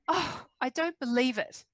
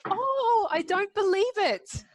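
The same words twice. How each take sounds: First: The voice sounds upset and disappointed. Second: The voice sounds happy and delighted. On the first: Something bad has happened. "that's obviously bad" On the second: Something good has happened. "it can be good"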